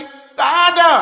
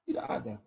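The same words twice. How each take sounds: First: Louder, higher "Tidak ada" thrown out firmly; the first "Tidak ada", pitched up and pushed out; emphatic denial. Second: Much lower and softer "Tidak ada" tossed away; the second "Tidak ada", low and soft as an afterthought; quiet echo. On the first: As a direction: say "Tidak ada" with a firm high push. Denies asking for money, repeats. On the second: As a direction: let "Tidak ada" drop to a near murmur. Repeats denial as aside. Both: Real, not acted.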